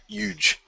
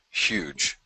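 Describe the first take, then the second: First: Huge said as yuge, no h sound, jumping up high; mock Trump yuge on huge; Trump-style yuge. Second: Said in the usual way. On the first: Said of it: "Oh, I'm sorry, huge". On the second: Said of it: "Like Donald Trump hands huge".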